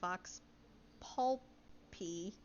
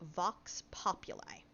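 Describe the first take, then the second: First: The second word is squeezed into two syllables. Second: The second word has three distinct syllables. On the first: The speaker calls it wrong. "I think I've been saying it wrong" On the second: The speaker calls it right. "So it is pronounced Vox Populi"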